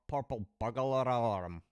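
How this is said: It is said in an imitated Glaswegian accent.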